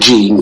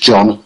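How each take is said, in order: First: The name is said like English 'Jean'. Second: The name is said like English 'John'. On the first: The speaker calls it wrong. "as in a female name, English name Jean" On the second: The speaker calls it right. "but it's pronounced John"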